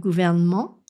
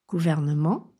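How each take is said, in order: First: The middle E vowel is dropped. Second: The middle E vowel is pronounced. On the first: The speaker calls it wrong. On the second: The speaker calls it right.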